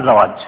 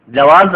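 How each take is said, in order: First: "জাওয়াজ" starting with z, ending in j; z-first pronunciation. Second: "জাওয়াজ" starting with j, ending in z; j-first pronunciation. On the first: Teacher contrasting the word for spouse, z-first "জাওয়াজ". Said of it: "আর জাওয়াজ মানে বিবাহ সাথী". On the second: Teacher contrasting the word for passport, j-first "জাওয়াজ". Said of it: "জাওয়াজ মানে হচ্ছে passport". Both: Shown as a demonstration.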